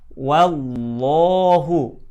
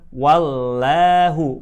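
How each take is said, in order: First: The 'l' of Allah is thick, near O. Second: The 'l' of Allah is thin, near A. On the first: The speaker calls it right. "Yang kedua, wallahu" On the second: The speaker calls it wrong. "bukan wallahu"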